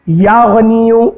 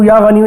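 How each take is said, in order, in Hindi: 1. यह वाक्यांश धीरे-धीरे और शांति से पढ़ा जाता है। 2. यह वाक्यांश जल्दी-जल्दी और हड़बड़ी में पढ़ा जाता है। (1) "आराम आराम से मोहब्बत से" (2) "जल्दी जल्दी ... इस तरीके से नहीं"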